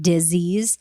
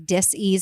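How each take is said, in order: First: It is said smoothly as one ordinary word. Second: It is split into two parts, dis and ease. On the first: The ordinary term for an illness. "and not disease" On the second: A lack of ease or balance in the body. "I say dis-ease like that on purpose"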